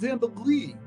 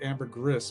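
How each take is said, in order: First: It is said the French way. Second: It is said the New Zealand way. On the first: The speaker calls it right. "It's ambergris. I know it is in, in French" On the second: The speaker calls it wrong. "I still want to pronounce it ambergris based on the book Floating Gold, because that is what they everybody calls it in New Zealand"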